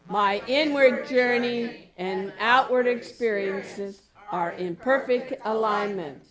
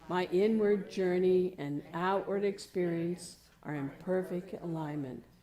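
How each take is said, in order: First: It is spoken out loud. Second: It is spoken at normal volume. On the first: It is spoken to the world. "And let's let the world know" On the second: It is spoken as oneself. "Speak it normally"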